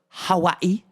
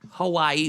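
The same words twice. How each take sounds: First: Hawaii is said the local Hawaiian way. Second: Hawaii is said the usual English way.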